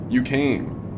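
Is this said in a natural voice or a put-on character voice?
natural. It is said in an ordinary, natural speaking voice. The speaker calls it wrong. "I just did my own speaking voice"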